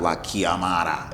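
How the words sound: It is said with a non-native, anglicized pronunciation. The speaker calls it wrong. "it's not"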